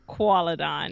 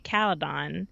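First: The name begins with a kw sound. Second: The name begins with a plain k sound. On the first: "they have the little qua in there" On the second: "I used to just say Caledon"

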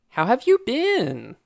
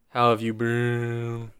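First: The voice rises at the end. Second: The voice falls at the end. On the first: "That's an actual question, so I guess that doesn't work" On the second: "You have to do down talk on the questions"

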